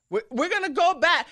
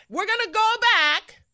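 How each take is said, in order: First: Louder mock alarm, slightly higher; mock Hillary warning. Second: Much higher, louder hammed-up alarm; mock alarmed cry. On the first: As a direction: parody her dire warning. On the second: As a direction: push the parody to a wail. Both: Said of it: "Hillary Clinton said".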